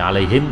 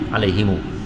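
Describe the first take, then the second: First: The word ends on a closed m sound. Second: The word ends with an added u vowel. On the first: "jadi alaihim jadi" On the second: "silah mimil jama', iaitu ada waw pada bunyi"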